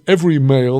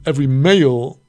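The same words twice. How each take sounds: First: Every male with every punched loud; stress on every. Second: Every male with male punched and falling; stress on male. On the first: Teacher giving Rabbi Yehuda's reading, stress on every. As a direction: hit the word every, keep male light. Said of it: "or do you emphasize the word every?". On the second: Teacher reading the verse, stress on male. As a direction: lean on the word male, let every pass. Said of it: "Do you emphasize the word male". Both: Shown as a demonstration.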